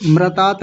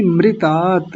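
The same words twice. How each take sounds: First: मृतात as mra-taat; wrong मृतात. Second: मृतात as mri-taat; right मृतात. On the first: Teacher showing the error, mra-taat for मृतात. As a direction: put an a after r in मृतात. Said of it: "मृतात नहीं". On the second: Teacher correcting the error, mri-taat for मृतात. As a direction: give मृतात a short ri. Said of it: "ऐसा बोलेंगे". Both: Shown as a demonstration.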